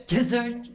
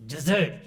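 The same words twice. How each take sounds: First: "Desert" stressed on the second syllable, high and rising, as the wrong version. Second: "desert" stressed on the first syllable with a plain falling tune; correct stress. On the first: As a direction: mimic the mistake: "Desert" with a rising last syllable. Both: Retold or imitated. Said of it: "You gave a wrong accent".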